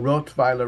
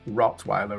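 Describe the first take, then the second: First: The word is pronounced the German way. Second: The word is pronounced the English way.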